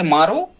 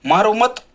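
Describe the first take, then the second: First: "मारो" alone, rising, then a halt; pause after मारो. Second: "मारो मत" joined, higher and rising, then stop; pause after मत. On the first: Teacher reads an example sentence, pause after मारो. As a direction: lift the end of "मारो" and stop there. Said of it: "अब हम यहाँ रुक गए". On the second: Teacher shows how meaning changes, pause after मत. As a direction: run "मारो" straight into "मत", break after it. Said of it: "मत के बाद यदि यहाँ लगा रहे होते". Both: Shown as a demonstration.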